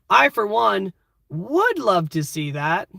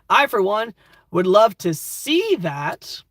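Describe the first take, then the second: First: The word 'would' carries the main stress. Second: The word 'see' carries the main stress. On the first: A 'but' is about to follow. "Would makes it sound like a question" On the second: It is a joke about the speaker's own sight. "This might be a blind character talking"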